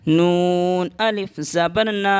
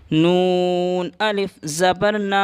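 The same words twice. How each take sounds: First: Slow letter-by-letter spelling; teacher spells out نا slowly. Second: نا held one alif long; teacher lengthens نا with alif madd; drawn long ا. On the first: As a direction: spell نون زبر نا slowly. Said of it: "ایک الف کے برابر کھینچ کر پڑھتے ہیں". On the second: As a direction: stretch the نا for one beat. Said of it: "کھینچ کر پڑھتے ہیں اس طرح سے". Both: Shown as a demonstration.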